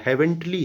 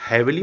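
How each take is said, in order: First: हेवनली said in full as "heavenly", with a clear n; हेवनली with the n sound kept: "hevn-li"; correct reading. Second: हेवनली said like "heavily", without the n sound; हेवनली as "hevili", n dropped; wrong reading. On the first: Teacher giving students the right form: हेवनली as "heavenly". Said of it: "हेवनली मत समझना". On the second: Teacher showing the misreading: हेवनली as "heavily". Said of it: "हेवनली है". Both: Shown as a demonstration.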